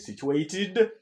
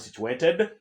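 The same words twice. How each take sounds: First: The -ed ending is an extra syllable. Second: The -ed ending adds no extra syllable. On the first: The speaker calls it right. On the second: The speaker calls it wrong.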